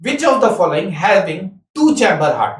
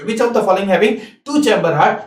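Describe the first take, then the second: First: Exam question read out slowly; slow, clear exam question; slow dictation. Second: Slow question, rising at the close; slow dictation, rising. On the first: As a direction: dictate each word slowly. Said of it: "तो हम पूछेंगे". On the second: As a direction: read it slowly, ending on a rise. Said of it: "मान लो ये question पूछे". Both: Shown as a demonstration.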